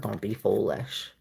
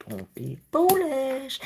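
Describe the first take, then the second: First: Said in the usual way. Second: "Don't be foolish" much higher and slower in a put-on scolding voice; high, slow, sing-song mock warning.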